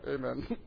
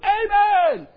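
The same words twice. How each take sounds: First: The word is said quietly and stiffly. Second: The word is shouted loudly with excitement. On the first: The crowd agrees but stays reserved. "They're just quiet and stiff" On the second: The crowd is carried away with enthusiasm. "everybody comes unglued"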